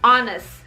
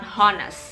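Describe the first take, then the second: First: The word starts without an h sound. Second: The word starts with an audible h sound. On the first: The speaker calls it right. "H-nya itu tidak diucapkan" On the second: The speaker calls it wrong. "bukan honest"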